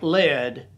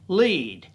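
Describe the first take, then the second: First: The vowel does not sound like bead's vowel. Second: The vowel sounds like the one in bead. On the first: "is not pronounced like lead" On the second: "B E A D, is pronounced like lead"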